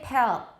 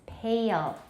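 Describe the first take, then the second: First: The vowel runs straight into L without a glide. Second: A schwa-like glide comes before the dark L. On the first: This is a common learner pronunciation. The speaker calls it wrong. "don't say pale" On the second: This is the native pronunciation. The speaker calls it right. "It's pale"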